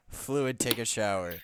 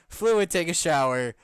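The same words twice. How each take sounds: First: Said in the usual way. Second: Higher, louder mock announcement; mock loud read. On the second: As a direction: belt it out as a joke. Reading a funny comment aloud.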